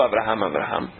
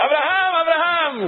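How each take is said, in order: First: The name is called softly and tenderly. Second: The name is shouted loudly and urgently. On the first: The caller speaks with fondness. "de querido" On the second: The caller is urgently trying to stop an action. "Estava gritando com ele para ele não fazer isso"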